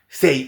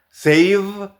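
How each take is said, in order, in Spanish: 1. La v final se omite por completo. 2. La v final se pronuncia claramente. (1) "lo que dicen es say, y se comen el v" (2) "en lugar de decir save"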